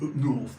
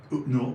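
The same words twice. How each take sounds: First: Said in the usual way. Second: Up north in a broad northern English accent, flat vowels. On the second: Shown as a demonstration. Telling a friend where he lives, light northern English accent. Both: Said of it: "Why do I do an accent?".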